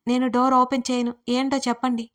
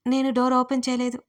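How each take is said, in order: First: Mild shout of open through a locked door. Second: Said in the usual way. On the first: Acted. Trapped woman shouting at men outside the door. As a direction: call out to them from inside the room. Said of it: "లోపల నుంచి గట్టిగా అరిచాను". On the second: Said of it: "గట్టిగా అరిచాను".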